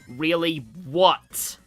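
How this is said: It sounds like a menacing challenge.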